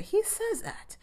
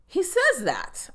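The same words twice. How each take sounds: First: Much higher but softer "He says that", stress on "He"; quiet disbelief. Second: Slow, much higher "He says that" with weight on "says"; emphatic. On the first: Repeating the line to viewers in a hushed, incredulous tone. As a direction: drop the volume and stress "He", still incredulous. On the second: Insisting to viewers the line was really said, slow and emphatic. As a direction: lean hard on "says" in disbelief. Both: Real, not acted. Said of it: "I rewound it to make sure he said it".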